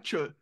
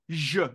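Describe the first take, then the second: First: The first consonant is voiceless, like sh. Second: The first consonant is voiced, like French j. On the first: The speaker calls it wrong. "ce n'est pas che" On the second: The speaker calls it right. "comme le J français"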